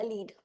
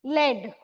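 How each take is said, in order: First: "lead" with a long ee; lead as in leader. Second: "Lead" with a short e, like "led"; pencil lead. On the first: Teacher sorting out the leader meaning, "lead" said as leed. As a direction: say "lead" to rhyme with need. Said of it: "leader वाला". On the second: Teacher asking about the pencil word, "Lead" said as led. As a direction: say "Lead" to rhyme with bed. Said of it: "pencil में जो use होता है". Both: Shown as a demonstration.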